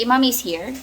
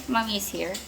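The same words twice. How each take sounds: First: Said in the usual way. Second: Soothing. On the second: Real, not acted. Mother comforting child who misses daddy, softly soothing.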